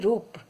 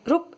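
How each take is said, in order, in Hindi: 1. 'u' स्वर दीर्घ है। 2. 'u' स्वर ह्रस्व है। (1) "हम बोलते हैं रूप" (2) "हम रूप ऐसे नहीं बोलते हैं"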